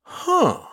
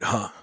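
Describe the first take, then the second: First: High-pitched, fishing "Huh"; a loaded, much higher "Huh" begging a question; leading huh. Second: Understated, innocent little "huh"; a casual "huh" with nothing behind it. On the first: Skippy baiting Joe to ask what he's thinking, leading. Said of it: "in the way that meant he wanted me to eagerly ask". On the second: Narrator showing the harmless version, innocent. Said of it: "An innocent, quiet "huh" would have been okay". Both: A narrator's reading.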